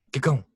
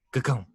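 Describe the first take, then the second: No difference in how they are said.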